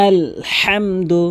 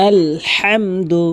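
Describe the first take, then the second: No difference in how they are said.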